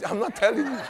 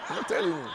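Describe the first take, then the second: First: Said in the usual way. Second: Laughing. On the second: Real, not acted.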